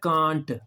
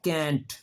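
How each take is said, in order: First: It is said with a British accent. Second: It is said with an American accent. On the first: "England में पढ़ते हैं कांट" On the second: "American इसको पढ़ते हैं कैंट"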